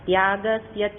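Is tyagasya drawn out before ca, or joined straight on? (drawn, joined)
joined. Tyagasya runs straight into ca. The speaker calls it right. "તરત જોડી દેવાના"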